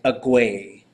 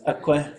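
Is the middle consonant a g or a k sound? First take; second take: g; k. First: The middle consonant sounds like a voiced g. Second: The middle consonant sounds like a voiceless k. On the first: The speaker calls it wrong. "it's not quite like agwe" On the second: The speaker calls it right. "It's aqua"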